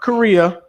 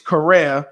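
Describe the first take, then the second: First: The name sounds like the country Korea. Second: The name does not sound like the country Korea. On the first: The speaker calls it wrong. "not Korea" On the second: The speaker calls it right. "It's Correa"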